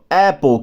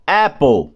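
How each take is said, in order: First: Apple said crisply as ɛpol; modelled apple. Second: Apple drawn out slowly as ɛpo. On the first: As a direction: model apple for students to copy. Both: Shown as a demonstration. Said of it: "eu falo assim, ó".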